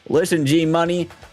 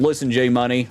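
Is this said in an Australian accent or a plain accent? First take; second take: plain; Australian. First: It is said in a plain, non-Australian accent. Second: It is said in an Australian accent. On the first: The speaker calls it wrong. "Oh, no, I forgot" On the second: The speaker calls it right. "I gave him an Australian accent or something"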